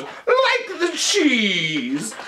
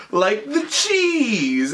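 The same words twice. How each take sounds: First: High, hugely stretched-out hammy repeat; hammy film doctor. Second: Drawn-out explanation. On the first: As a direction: drag it out high, like a mad scientist. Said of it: "And then he goes". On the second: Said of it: "And, and then he goes". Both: Retold or imitated.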